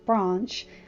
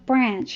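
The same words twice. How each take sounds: First: The vowel is a long British 'ah'. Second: The vowel is a short American 'a'. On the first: "I have an English accent, so ... I'm going to say branch" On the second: "instead of saying branch all the time"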